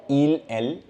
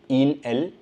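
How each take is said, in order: No difference in how they are said.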